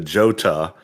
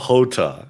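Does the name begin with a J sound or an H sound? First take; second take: J sound; H sound. First: The name begins with a J sound. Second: The name begins with an H sound. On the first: The speaker calls it wrong. "I even told it to him" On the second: The speaker calls it right. "oh no, it's the Hota"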